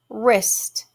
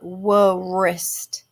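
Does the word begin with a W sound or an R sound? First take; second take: R sound; W sound. First: The word starts with a plain R sound. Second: The word starts with a sounded W. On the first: The speaker calls it right. "So W is silent" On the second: The speaker calls it wrong. "It's not wrist"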